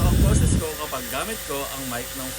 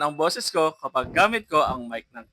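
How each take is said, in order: First: The voice sounds less clear and distant. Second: The voice sounds crisp, close and clear. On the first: The speaker calls it wrong. "kapag gamit ko ang mic ng phone" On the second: The speaker calls it right. "Crystal clear at sobrang linaw ng tunog"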